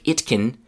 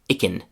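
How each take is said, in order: First: The two words are said separately and fully. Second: The two words run together into one reduced word. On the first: "Instead of it can" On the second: "the pronunciation is icken"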